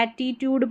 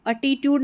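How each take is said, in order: First: "एटीट्यूड" starting with open "ae", ae-ti-tyood; "एटीट्यूड" with a front first vowel; correct pronunciation. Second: "एटीट्यूड" starting with "uh", uh-tee-tyood; "एटीट्यूड" with a schwa first vowel; wrong pronunciation. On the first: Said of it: "एटीट्यूड पढ़ना है". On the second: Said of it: "एटीट्यूड नहीं पढ़ना है". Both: Shown as a demonstration.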